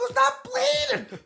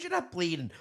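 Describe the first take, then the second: First: Very high, slow, mocking echo of "not bleeding"; whiny mimicry. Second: Said in the usual way. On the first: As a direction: parrot him back in a squeaky sneer. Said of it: "I go". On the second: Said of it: "He goes".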